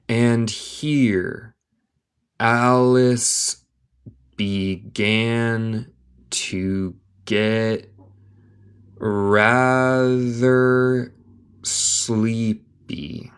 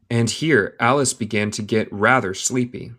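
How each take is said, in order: First: Very slow, drawn-out separate words; word-by-word dictation. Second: Said in the usual way. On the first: Shown as a demonstration. Teacher reading Alice to learners, word by word. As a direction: stretch each word and pause after it.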